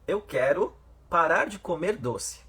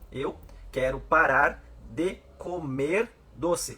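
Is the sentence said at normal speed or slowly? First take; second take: normal speed; slowly. First: It is said at a normal speed. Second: It is said very slowly.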